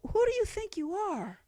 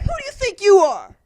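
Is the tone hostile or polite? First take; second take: polite; hostile. First: It is asked gently and hesitantly. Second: It is asked harshly and confrontationally. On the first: A courteous question asked out of curiosity. "They don't say, hey, um, hey, if you don't mind me asking" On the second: A challenge to the person's right to be there. "They're like, ... they don't say it nicely"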